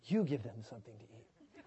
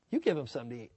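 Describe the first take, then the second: First: Low, soft, amused Jesus; gentle low Jesus take. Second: Said in the usual way. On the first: Shown as a demonstration. Preacher guessing how Jesus said it, low and amused. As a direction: say it low and kind, half laughing. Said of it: "I don't know if he was like". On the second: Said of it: "the voice inflection and all that stuff".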